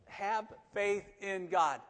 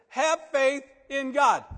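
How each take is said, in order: First: Very slow, stress on FAITH at usual level; slow deliberate stress. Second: Higher, louder and slow, leaning on HAVE; emphatic command. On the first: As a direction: draw out "Have faith in God", weight on "faith". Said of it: "repeating the key phrase". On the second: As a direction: proclaim "Have faith in God" loud and slow, pressing on "Have". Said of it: "Jesus answered". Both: Shown as a demonstration.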